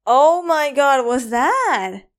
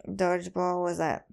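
First: Louder, higher amazed outburst; excited. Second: Said in the usual way. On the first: Real, not acted. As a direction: burst out in disbelief.

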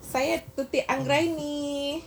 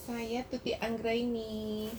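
First: Repeated louder and higher. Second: Faint and slow, too quiet; barely audible, far from the mic. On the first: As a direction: speak up, closer to the mic. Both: Real, not acted. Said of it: "Suara Bu Dokter masih pelan".

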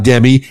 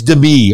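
First: "Demi" stressed on the first syllable, DEM-ee; "Demi" as DEM-ee, the mistaken way; wrong stress. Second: "Demi" stressed on the second syllable, de-MEE; "Demi" as de-MEE, the right way; corrected stress. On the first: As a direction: say "Demi" with the weight up front, DEM-ee. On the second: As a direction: say "Demi" with the weight at the end, de-MEE. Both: Shown as a demonstration. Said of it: "I put the wrong emphasis on the wrong syllable".

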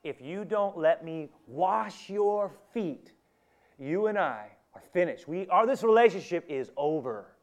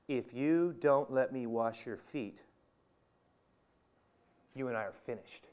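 First: Raised, slow, emphatic ultimatum; forceful, drawn-out final warning; strong statement. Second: Grave, controlled warning; strong statement. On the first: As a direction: push each word higher and louder. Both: Acted. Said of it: "That's a pretty strong statement".

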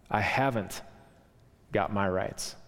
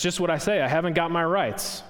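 First: Gentle spirit. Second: Lightly voiced aggrieved ghost; indignant ghost. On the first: Acted. Spirit's soft reply, echoed by ghost. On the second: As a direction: throw his words back at him. Ghost throws the words back.

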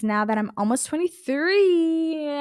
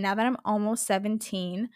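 First: Higher, slow, drawn-out joke age; joking mock announcement. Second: Said in the usual way. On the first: Host jokes about their age to listeners, playfully drawn out. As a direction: stretch out twenty-three in a playful high voice.

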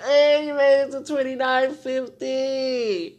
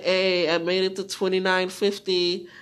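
First: Slow, loud, higher mock cheer; drawn-out cheer. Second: Loud listener's report in own voice; loud announcement. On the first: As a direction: stretch it out like a hearty shout-out. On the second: Acted. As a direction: call it out as a listener would. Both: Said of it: "Be like".

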